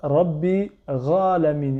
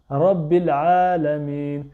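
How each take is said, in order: First: A rasping gh sound starts 'alamin'. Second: A deep throat ain sound starts 'alamin'. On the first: The speaker calls it wrong. "Ils vont dire Ra, Ghalamin. C'est pas un Ra" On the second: The speaker calls it right. "c'est A"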